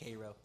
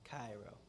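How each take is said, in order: First: The name is pronounced the way locals say it. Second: The name is pronounced the way it is spelled. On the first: This is how the town's residents say it. "That's how they say it" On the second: This is how it is said in the song. "because that's how it's spelled"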